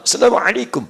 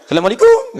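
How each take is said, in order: First: Higher-pitched Arabic-accented greeting. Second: Mock Indian-accented greeting, higher-pitched. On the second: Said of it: "Orang India ketahuan". (logat India tiruan) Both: Shown as a demonstration.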